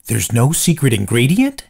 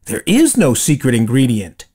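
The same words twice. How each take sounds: First: "There's no secret ingredient?" rising at the end; question, rising tune. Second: "There is no secret ingredient" with a falling, settled end; statement, falling tune. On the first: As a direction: ask it in disbelief, "ingredient" going up. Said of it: "Po was shocked". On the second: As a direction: tell it as a calm fact, "ingredient" dropping. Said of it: "he told Po". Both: Acted.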